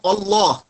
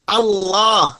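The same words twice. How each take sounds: First: Allah wrongly begun with O, as Olloh; thick hamzah. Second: Allah with a light open first A, heavy second syllable; thin hamzah. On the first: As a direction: round the first A of Allah into a thick O. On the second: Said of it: "jangan Allah". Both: Shown as a demonstration.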